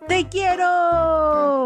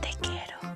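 First: It is said very loudly. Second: It is said very quietly.

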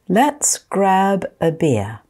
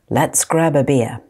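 First: The phrase is spoken slowly. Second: The phrase is spoken at normal speed. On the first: "I'm going to say them slowly first" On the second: "Then I'll say them at normal speed"

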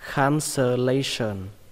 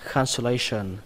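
First: The word is said slowly, syllable by syllable. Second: The word is said quickly, at natural speed. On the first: "đọc là" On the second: "đọc nhanh là"

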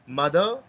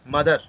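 First: The final R sound is silent. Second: The final R sound is pronounced. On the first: The speaker calls it right. "Its correct pronunciation is mother" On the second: The speaker calls it wrong. "We should not pronounce mother"

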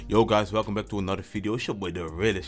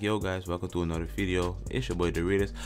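First: It is said confidently, with chest. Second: It is said timidly, without chest.

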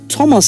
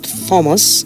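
First: The name begins with a plain 't' sound. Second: The name begins with a 'th' sound. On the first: The speaker calls it right. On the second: The speaker calls it wrong.

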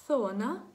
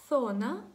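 The two takes are said the same way.

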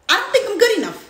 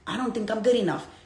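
First: It is said in a silly, mocking tone. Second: It is said in a sad, gloomy tone. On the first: The speaker laughs off the self-doubt. The speaker calls it right. "maybe make fun of it" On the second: The speaker feels depressed and doubts themselves. The speaker calls it wrong. "And it's a negative tone"

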